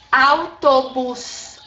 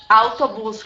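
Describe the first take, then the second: First: "Autobus" very slow, in separated syllables; syllable-by-syllable demo. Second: Said in the usual way. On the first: Shown as a demonstration. Teacher showing students a word they may not see, slow demonstration. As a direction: stretch out "Autobus" as au-to-bus. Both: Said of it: "é bem assim como eu tô falando".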